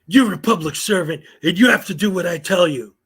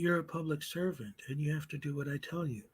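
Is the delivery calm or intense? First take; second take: intense; calm. First: It is said in an intense, forceful way. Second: It is said in a calm, quiet way.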